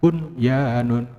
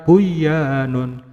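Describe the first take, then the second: First: The n sound is pronounced clearly. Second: The n sound merges into the y. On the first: The speaker calls it right. "tapi harus dibaca bunyanun" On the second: The speaker calls it wrong. "jangan dibaca buyanun"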